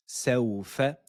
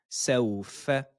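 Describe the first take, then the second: No difference in how they are said.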